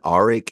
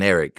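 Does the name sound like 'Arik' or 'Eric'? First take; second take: Arik; Eric. First: The name begins with an 'ah' vowel. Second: The name begins with an 'eh' vowel. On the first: The two names would sound different. The speaker calls it wrong. "I really thought that they were pronouncing the A one Arik" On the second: The two names sound the same. The speaker calls it right. "but it's Eric and Eric"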